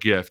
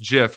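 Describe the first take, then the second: First: The word begins with a hard g sound. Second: The word begins with a soft j sound. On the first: The speaker calls it wrong. "not GIF" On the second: The speaker calls it right. "just like the peanut butter"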